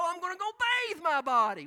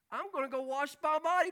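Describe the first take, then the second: First: Bathe said higher and louder; stress on bathe. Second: Said in the usual way. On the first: Shown as a demonstration. Preacher correcting wash to bathe, stress on bathe. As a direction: punch the word bathe as the right one.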